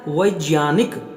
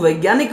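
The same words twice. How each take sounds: First: The word is said the pure Sanskrit way. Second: The word is said the everyday colloquial way. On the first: The speaker calls it right. "लेकिन बनेगा क्या" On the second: The speaker calls it wrong. "हम उसको वैज्ञानिक बोल रहे हैं"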